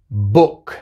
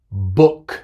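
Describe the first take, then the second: The two takes are said the same way.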